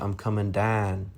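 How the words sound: It is said in a Houston accent. "from Houston, people say"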